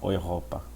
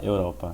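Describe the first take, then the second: First: It is pronounced the German way. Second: It is pronounced the Portuguese way. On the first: "em alemão você fala Europa" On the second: "você quer falar Europa"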